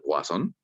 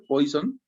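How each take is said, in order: First: The name is said with French sounds. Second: The name is said with Spanish sounds.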